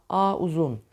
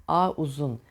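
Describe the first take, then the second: The two takes are said the same way.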